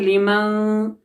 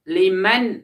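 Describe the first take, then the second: First: The n sound is held in the nose. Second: The n sound is clear and said quickly. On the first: The speaker calls it wrong. "अब इसको नाक में नहीं रखना है, इस तरह से नहीं पढ़ेंगे" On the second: The speaker calls it right. "अब इसको जाहिर करना है और जल्दी पढ़ना है"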